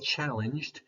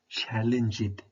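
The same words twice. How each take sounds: First: The ending joins the word with no extra syllable. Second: The ending is said as an extra syllable. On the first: The speaker calls it right. "he didn't say challenged" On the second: The speaker calls it wrong. "It's an incorrect pronunciation"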